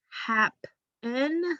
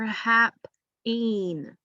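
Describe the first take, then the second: First: The second syllable has a short, weak vowel. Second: The second syllable has a long E sound. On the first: The speaker calls it right. "Happen is something I've heard before" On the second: The speaker calls it wrong. "so it shouldn't say E anyway"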